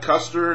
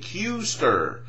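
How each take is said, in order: First: The name is said like Custer. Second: The name is said the intended way, Kuester. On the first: The speaker calls it wrong. "Not Custer" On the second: The speaker calls it right. "Say it with me"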